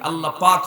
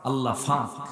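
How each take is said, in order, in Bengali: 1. দ্বিতীয় শব্দটি সাধারণ 'প' ধ্বনি দিয়ে শুরু হয়। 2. দ্বিতীয় শব্দটি 'ফ' ধ্বনি দিয়ে শুরু হয়। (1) "আল্লাহ পাক হয় না" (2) "ফ প হয় না, ফ হয়ে যায়"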